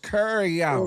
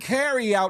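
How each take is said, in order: First: The first word sounds like 'curry'. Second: The first word sounds like 'carry'. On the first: The speaker calls it right. "It's curry out" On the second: The speaker calls it wrong. "It ain't carry out"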